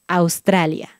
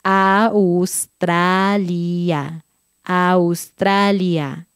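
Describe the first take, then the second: First: "Australia" said at normal speed; brisk natural "Australia"; faster. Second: "Australia" drawn out syllable by syllable; very slow careful "Australia"; slowly. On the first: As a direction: say "Australia" quickly and smoothly. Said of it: "después más rápido". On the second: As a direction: stretch every vowel of "Australia". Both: Shown as a demonstration.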